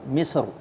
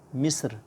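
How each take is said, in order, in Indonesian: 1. Bunyi r akhir dibaca tebal dan berat. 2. Bunyi r akhir dibaca tipis dan ringan. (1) "kita baca tebal karena kita berhenti" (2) "sekarang kita baca tipis"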